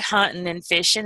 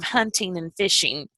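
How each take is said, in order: First: The ends of the words are cut off. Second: The ends of the words are fully pronounced. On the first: This is how the accent makes the words sound. "she would say" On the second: This is the standard way to say the words. "instead of"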